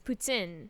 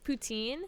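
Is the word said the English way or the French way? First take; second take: French; English. First: The word has a French pronunciation. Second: The word has an English pronunciation. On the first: "but in French, ... it's poutine" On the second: "in English it's poutine"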